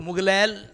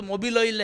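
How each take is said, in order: First: "मुगलैल" run together as one garbled word; common mispronunciation. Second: "मोबिल ऑयल" as two separate words; correct pronunciation. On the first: Retold or imitated. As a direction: imitate the folk version "मुगलैल", with G for B. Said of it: "लोग मुगलैल थोड़ी होता". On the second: Shown as a demonstration. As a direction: say "मोबिल ऑयल" in full, every syllable kept. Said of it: "होता तो मोबिल ऑयल है।".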